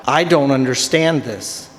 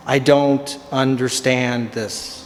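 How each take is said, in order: First: Said in the usual way. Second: Slower and lower, each word dragged out; baffled slow-motion repeat; slow exasperated repeat. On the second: Shown as a demonstration. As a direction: spell it out slowly in disbelief.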